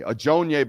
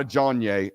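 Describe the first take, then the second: First: "Ajonye" said uh-CHOHN-yay, stress on the middle; careful, correct "Ajonye" with a long middle O; correct name pronunciation. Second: "Ajonye" clipped to CHAHN-yay with a short A; the mistaken "Ajonye" as CHAHN-yay, first syllable dropped; wrong pronunciation. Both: Shown as a demonstration. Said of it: "by the way, not Ajonye".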